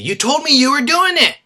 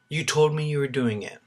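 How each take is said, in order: First: It is said in an angry tone. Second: It is said in a neutral tone.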